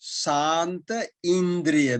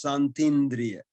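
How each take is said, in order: First: The two words are said separately. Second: The two words merge into one word.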